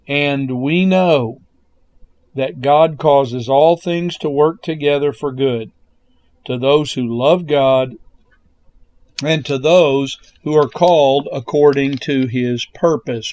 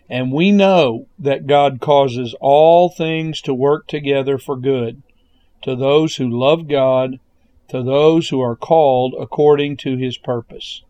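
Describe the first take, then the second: First: It is read slowly. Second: It is read at normal speed.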